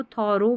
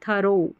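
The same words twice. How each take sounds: First: 'थोरो' with a full first O; alternative reading. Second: 'थरो' with a short first vowel; preferred reading. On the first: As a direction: show the other form, थोरो. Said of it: "अब इसको थोरो भी पढ़ते हैं". ('थोरो', पहले ओ स्वर के साथ) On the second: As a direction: model थरो alone, long final O. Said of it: "लेकिन आप इसको पढ़ें". ('थरो', छोटा अ, फिर ओ) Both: Shown as a demonstration.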